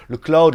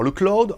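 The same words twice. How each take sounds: First: « cloud » à l'américaine, en « claoud »; American accent on "cloud", said "klaoud"; accent américain. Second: Said in the usual way. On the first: Real, not acted. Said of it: "moi, accent américain, hein, ou pas". (prononcer « cloud » avec l'accent américain) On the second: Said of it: "accent américain, hein, ou pas".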